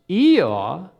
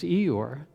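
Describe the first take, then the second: First: The final R sound is dropped. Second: The final R sound is pronounced. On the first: "an English dialect whereby they dropped the R" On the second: "I've been pronouncing Eeyore's name as Eeyore"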